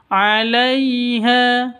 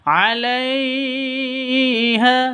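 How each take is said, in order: First: The 'lai' sound is smooth and soft. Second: The 'lai' sound is jerked or overstretched. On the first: The speaker calls it right. "Yang betul 'alaiha, begitu ya, lentur, lemes" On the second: The speaker calls it wrong.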